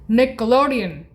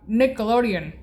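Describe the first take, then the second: No difference in how they are said.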